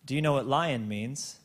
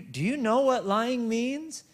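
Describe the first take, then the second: First: "lion" said as two syllables, "lie-on", in plain voice; "lion" where "lying" was meant; the toddler's mishearing, "lion" in a plain question; lion as heard. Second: "lying" spoken slowly and high as a serious question; a father asking his toddler slowly and high what "lying" means; lying said clearly. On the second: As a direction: stress "lying" as a stern father. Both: Retold or imitated. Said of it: "She thought I was saying".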